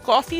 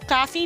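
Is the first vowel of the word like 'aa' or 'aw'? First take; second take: aw; aa. First: The first vowel is a rounded 'aw'. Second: The first vowel is a long open 'aa'. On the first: It names the drink. The speaker calls it right. "कॉफी होता है" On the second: It sounds like the word for 'enough'. The speaker calls it wrong. "तो काफी नहीं होता है"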